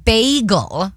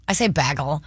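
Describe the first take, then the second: First: Bagel with a long ay vowel, BAY-gul; Midwestern bagel. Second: Bagel with a short a, BAG-ul; standard bagel. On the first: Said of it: "I always say this word". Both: Shown as a demonstration.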